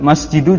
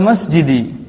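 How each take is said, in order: First: The word ends in a u vowel. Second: The word ends in an i vowel. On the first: The speaker calls it wrong. "juga salah" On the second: The speaker calls it right. "Di kasrah"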